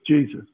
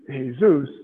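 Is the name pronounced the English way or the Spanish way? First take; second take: English; Spanish. First: The name is pronounced the English way. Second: The name is pronounced the Spanish way. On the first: "but by his English pronunciation" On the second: "not by his Spanish pronunciation"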